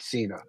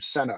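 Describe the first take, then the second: First: The name is said like 'Cena'. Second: The name is said like 'Senna'. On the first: The speaker calls it wrong. "not Cena" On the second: The speaker calls it right. "pronounces her last name Senna"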